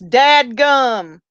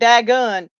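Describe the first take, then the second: First: The word is said as dadgum. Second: The word is said as dagun. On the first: The speaker calls it right. "it's dadgum" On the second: The speaker calls it wrong. "not dagun"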